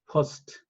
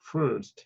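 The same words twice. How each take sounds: First: The r sound is left out. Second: The r sound is pronounced moderately.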